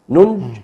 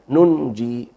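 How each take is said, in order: First: The word ends on the consonant, without 'ee'. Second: The word ends with a long 'ee' vowel. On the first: It keeps the written form but breaks the reading. "فإذا وقفت ننج هكذا ليعقوب فدي مخالفة للرواية" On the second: It keeps the reading but breaks the written form. "إذا وقف هنا وقف بالياء"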